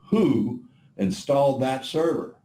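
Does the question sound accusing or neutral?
accusing. It is asked in an accusing, critical tone. The speaker thinks the installation was a mistake.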